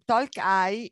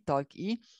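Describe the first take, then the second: First: The final letter sounds like English 'eye'. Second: The final letter sounds like Italian 'ee'.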